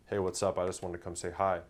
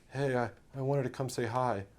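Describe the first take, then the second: First: Easy and unhurried, no rush; calm collected opener. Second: Stammering, higher, timid greeting; a hesitant guy losing his nerve; weak nervous opener. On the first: Coach showing the confident way to greet a girl. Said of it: "You're calm, you're collected". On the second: Coach acting out a weak opener to a girl. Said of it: "You sound like a little bitch". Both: Shown as a demonstration.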